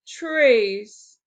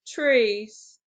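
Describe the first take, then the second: First: "Trees." said louder and drawn out as one firm beat; stressed beat. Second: Said in the usual way. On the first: Shown as a demonstration. Teacher stresses trees as one firm beat for the class. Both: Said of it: "One syllable".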